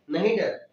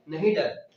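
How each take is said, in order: First: Said in the usual way. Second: "नहीं डर" split from the name, NAHIN stressed and falling; mnemonic stress. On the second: Shown as a demonstration. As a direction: say "नहीं डर" as two words, stress on नहीं. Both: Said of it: "क्या लिखा है?".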